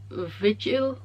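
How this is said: The name is said with a French accent. "in the French accent it's like"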